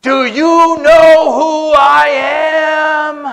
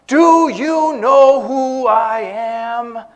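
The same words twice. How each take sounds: First: Mock furious bellow, high and slow; hammed-up indignant shout, every word stretched; irate. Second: Higher, slow, drawn-out demand; mock demand. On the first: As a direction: bellow it like an outraged big shot. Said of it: "became irate and got red in the face". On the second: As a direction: imitate a self-important man demanding recognition. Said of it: "that demand".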